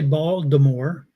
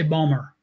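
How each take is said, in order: First: It is said fully, without the local Baltimore accent. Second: It is said in a clipped local Baltimore accent.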